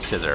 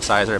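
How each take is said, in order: First: The first vowel sounds like 'ih'. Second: The first vowel sounds like 'eye'. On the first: The speaker calls it right. "but it's actually scissor" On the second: The speaker calls it wrong. "I pronounced it sizer"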